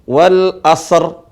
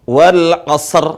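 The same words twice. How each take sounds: No difference in how they are said.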